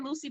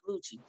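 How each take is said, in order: First: The name is said like 'Lucy', with an s sound. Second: The name is said like 'Lucci', with a ch sound. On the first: This is how the speaker himself said it. The speaker calls it wrong. "I said Lucy" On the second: This is how others told him it is said. The speaker calls it right. "they told me it was Lucci"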